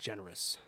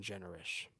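First: Generous said properly, soft j at the start and ending in -us; corrected generous. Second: Generous said as chenerish, with a ch sound at the start and ish at the end; mispronounced generous. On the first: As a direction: fix the word generous to its standard sound. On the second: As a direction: slip on generous, saying chenerish. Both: Real, not acted.

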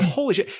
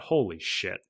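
First: High-pitched retold astonishment; incredulous radio reply. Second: Softer, lower muttered reaction; stunned inner thought. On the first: Pilot answering his coach on the radio, high incredulous exclamation. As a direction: blurt it out high, in disbelief. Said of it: "I got on the radio". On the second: Retold or imitated. Pilot thinking over the coach's order, quiet stunned aside. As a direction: say it under your breath, to yourself. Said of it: "And I thought".

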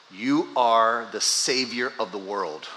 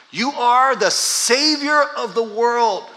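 First: Said in the usual way. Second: Higher, louder and slow; slow ringing proclamation; proclaimed loudly. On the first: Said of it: "Let me translate that for us in a very grandiose way". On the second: Shown as a demonstration. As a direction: proclaim it as a big statement. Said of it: "That's a big statement".

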